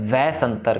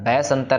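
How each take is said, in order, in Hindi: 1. यह शब्द v ध्वनि से शुरू होता है। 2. यह शब्द b ध्वनि से शुरू होता है। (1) "वव्वे के साथ है ... वै संतर कहना है" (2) "सो इसको बब्बा नहीं कहना, वै संतर नहीं कहना"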